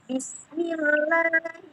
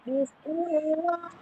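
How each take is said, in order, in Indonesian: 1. Huruf L dibaca tipis dan ringan. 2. Huruf L dibaca tebal dan berat. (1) "tapi menjadi la, la, la, seperti kita melafalkan huruf la" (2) "jadi bukan bismillah, bukan"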